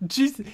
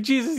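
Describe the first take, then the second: First: Mock Mark. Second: Mock Eve. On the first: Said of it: "he's like". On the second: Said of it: "she's like".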